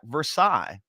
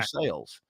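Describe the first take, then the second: First: It is pronounced the French way. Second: It is pronounced the local Kentucky way. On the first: The speaker calls it wrong. "it looks like Versailles" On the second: The speaker calls it right. "and it's Versailles"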